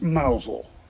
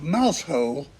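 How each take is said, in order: First: It is said shortened, sounding like 'Mousel'. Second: It is said as written, with 'mouse' and 'hole'.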